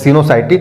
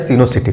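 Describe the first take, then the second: First: The middle syllable sounds like 'sai'. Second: The middle syllable sounds like 'see'. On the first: "सी वाई से शायद साई पढ़ लीजिए उसे" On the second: "चाहे सी पढ़ लीजिए"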